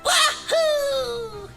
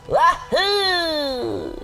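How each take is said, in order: First: It is said at a higher pitch. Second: It is said at a lower pitch.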